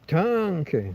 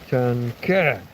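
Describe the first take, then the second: First: The stress is on the first syllable. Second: The stress is on the last syllable. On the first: The speaker calls it wrong. "I push down on the A" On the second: The speaker calls it right. "it should be tanke"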